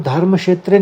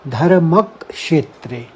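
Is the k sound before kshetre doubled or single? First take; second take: single; doubled. First: The k sound is said only once. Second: The k sound is doubled and held. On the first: The speaker calls it wrong. "इसको धर्म क्षेत्र नहीं पढ़ना है" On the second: The speaker calls it right. "हमारा इसमें आघात आएगा क का"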